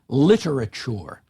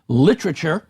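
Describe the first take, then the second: First: Every syllable is pronounced with its full weight. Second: A syllable is reduced, making the word shorter. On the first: "rather than" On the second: "in British English you'll hear the pronunciation"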